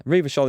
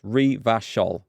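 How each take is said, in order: First: Said in the usual way. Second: Revachol spaced out syllable by syllable; pronunciation demo. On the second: Shown as a demonstration. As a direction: demonstrate saying Revachol, each syllable separate. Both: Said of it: "Revachol is pronounced Revachol".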